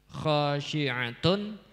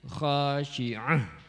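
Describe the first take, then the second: First: The word ends with a t and n sound. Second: The word ends with a breathy h sound. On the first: The word is read without stopping. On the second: The reader stops on this word.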